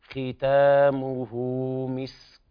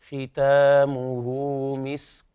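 Both takes have the same delivery.

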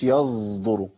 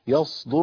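First: The sad is mixed with a z-like sound. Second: The sad is pronounced as a pure emphatic s. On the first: The speaker calls it wrong. "ما اقولش يصدر، الصاد ممكن تشوب يشوبها صوت" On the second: The speaker calls it right. "الصاد هي صاد"

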